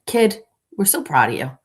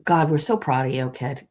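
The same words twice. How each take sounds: First: Higher, louder gushing stepdad praise; a higher, louder hammed-up proud dad; gushing stepfather. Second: Said in the usual way. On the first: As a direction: overdo the proud stepfather cheer. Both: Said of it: "he is like".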